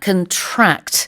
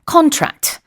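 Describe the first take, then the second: First: The stress is on the second syllable. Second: The stress is on the first syllable.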